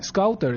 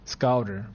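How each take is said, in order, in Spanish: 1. La T se pronuncia claramente. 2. La T se come, al estilo americano.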